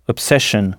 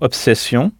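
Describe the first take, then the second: First: The ending is said as an English 'shun'. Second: The ending is said as a French 'sion'. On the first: "et 2-S-I-O-N, shun, comme dans obsession" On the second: "la terminaison 2-S-I-O-N, sion, comme dans obsession"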